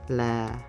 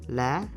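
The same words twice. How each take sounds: First: The pitch is low and lowered. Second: The pitch starts high and rises. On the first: "This tone gives a low pitch" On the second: "Now is acute"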